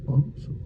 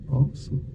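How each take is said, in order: Both takes have the same delivery.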